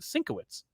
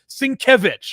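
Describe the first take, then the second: First: The name is said as 'Sinkowitz'. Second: The name is said as its phonetic spelling. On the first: The speaker calls it wrong. "for the first twenty-five years I pronounced it Sinkowitz" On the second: The speaker calls it right. "so that he could spell it phonetically"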